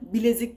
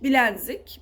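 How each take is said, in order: First: No n sound comes before the z. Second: An extra n sound comes before the z. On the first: The speaker calls it right. "net olarak bilezik dememiz lazım" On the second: The speaker calls it wrong. "böyle bir şey hiç yok"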